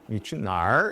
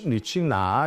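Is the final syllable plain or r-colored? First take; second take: r-colored; plain. First: The final syllable ends with an added r-sound. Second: The final syllable ends plainly without an r-sound. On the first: "북쪽 지역 사람들은 꼭 니취날 이렇게 말하거든요" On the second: "니취나 이렇게 말해도 될 거를"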